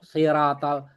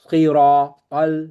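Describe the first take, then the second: First: The consonants and vowels sound thin and light. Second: The consonants and vowels sound thick and heavy. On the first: The speaker calls it wrong. "bukan siratal" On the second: The speaker calls it right. "Ini ini paling tebal"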